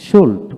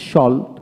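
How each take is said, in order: First: সোল্ট with a rounded "oh" vowel; British সোল্ট for learners to copy; British pronunciation drill. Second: সল্ট with an open "aw" vowel; American সল্ট for learners to copy; American pronunciation drill. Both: Shown as a demonstration. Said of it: "এইভাবে দুইটা উচ্চারণে পড়াবেন".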